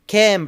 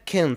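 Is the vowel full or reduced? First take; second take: full; reduced. First: The vowel is full and clear. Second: The vowel is reduced to a schwa. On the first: "strong forms" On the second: "بتشيل حرف المتحرك الفاول وبنخليه برضو شوا"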